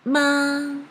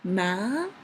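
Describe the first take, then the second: First: The pitch stays high and level. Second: The pitch rises from mid to high. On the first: "It is very high and flat" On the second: "from the mid to high"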